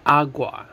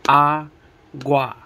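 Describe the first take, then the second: First: Said in the usual way. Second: Agua broken into A, pause, GUA; split into syllables. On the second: Shown as a demonstration. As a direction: say Agua one syllable at a time. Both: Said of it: "Two syllables".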